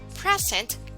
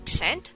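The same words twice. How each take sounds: First: The stress is on the first syllable. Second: The stress is on the second syllable. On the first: It means a gift. "When we say present, that's a gift" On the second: It means to give something formally. "When we say present, that is to give something formally"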